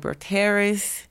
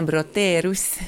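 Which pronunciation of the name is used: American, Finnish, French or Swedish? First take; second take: American; Swedish. First: The name is said with an American pronunciation. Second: The name is said with a Swedish pronunciation. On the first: "Les Américains disent Elina Broterus" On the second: "Les Suédois disent Elina Broterus"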